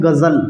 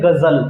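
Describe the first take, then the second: First: Said in the usual way. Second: गज़ल with a buzzing z, not j; Hindi-Urdu गज़ल with z sound; nukta on gazal. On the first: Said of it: "गज़ल ना कह के". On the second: Shown as a demonstration. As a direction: buzz the ज़ in गज़ल as z. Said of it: "ज में झनकार आ जाएगी".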